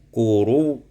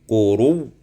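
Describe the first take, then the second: No difference in how they are said.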